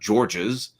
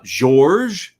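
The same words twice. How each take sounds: First: The name is said with an English pronunciation. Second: The name is said with a French pronunciation. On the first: The speaker calls it wrong. "not Georges" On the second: The speaker calls it right. "which is like a French pronunciation"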